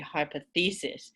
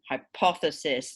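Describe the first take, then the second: First: The stress falls on an unexpected syllable. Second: The stress falls on the expected syllable. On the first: The speaker calls it wrong. "my student would say hypothesis" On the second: The speaker calls it right. "Instead of hypothesis"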